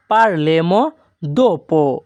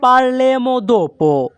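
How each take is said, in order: First: Said in the usual way. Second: "parleremo dopo" very slow, higher and drawn out; slow model phrase. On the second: Shown as a demonstration. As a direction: stretch "parleremo dopo" out for learners. ("parleremo dopo" খুব ধীরে, উঁচু সুরে টেনে) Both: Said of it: "এই বাক্যের Italian হবে".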